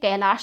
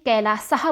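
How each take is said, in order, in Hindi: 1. इसके अंत में सादा 'sh' ध्वनि है। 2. इसके अंत में 's' ध्वनि और हल्की साँस वाली 'ah' है। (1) "हिंदी में कैलाश बोला जाता है" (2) "संस्कृत में कैलासः बोला जाता है"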